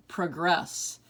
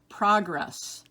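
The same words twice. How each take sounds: First: Pruh-GRESS, second syllable stressed. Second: PROG-ress, first syllable stressed. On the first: Teacher giving other pronunciation, progress as pruh-GRESS. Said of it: "have different emphasis". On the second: Teacher reading word list to students, progress as PROG-ress. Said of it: "give you both pronunciations". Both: Shown as a demonstration.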